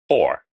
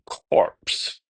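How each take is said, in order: First: The final P and S sounds are silent. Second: The final P and S sounds are pronounced. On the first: The speaker calls it right. "we're going to drop the P and the S" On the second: The speaker calls it wrong. "we would think corpse"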